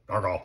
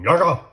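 First: The name is said at normal volume. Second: The name is screamed loudly.

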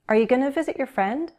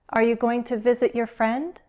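First: Going to is reduced to gonna, spoken faster. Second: Going to is said fully at a slower pace. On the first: "We'll speak faster and we'll use gonna" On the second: "Let's use go and be going to"

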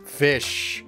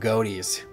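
First: The word sounds like 'fish' with an F. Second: The word sounds like 'goaties' with a hard G. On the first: The speaker calls it right. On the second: The speaker calls it wrong.

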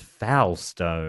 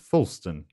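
First: The last syllable has a full 'stone' vowel. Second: The last syllable is reduced to a short 'stun'.

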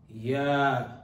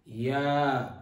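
The two takes are said the same way.

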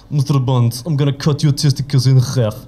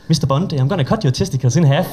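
First: It is spoken with a Russian accent. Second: It is spoken with a Danish accent. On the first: The threat sounds dangerous. "de laver bare en russisk accent. Altså, så er alt jo farligt" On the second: The threat does not sound dangerous. "Det kan du ikke lave med en dansk accent, vel?"

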